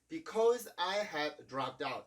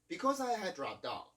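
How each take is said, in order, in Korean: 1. 두 D 소리를 각각 따로 발음해요. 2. 두 D 소리가 하나로 합쳐져요. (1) "이런 식으로 발음하는 게 아니라" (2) "이렇게 발음을 해주고 있죠"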